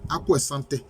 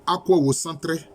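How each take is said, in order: First: The second word is said as 'santé'. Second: The second word is said as 'wocentré'. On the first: The speaker calls it wrong. "ce n'est pas la bonne prononciation" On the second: The speaker calls it right. "C'est Wocentré"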